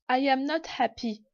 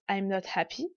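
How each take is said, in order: First: I and am are said as two full words. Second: I and am are merged into one syllable. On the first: "la forme négative pleine" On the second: "formes contractées"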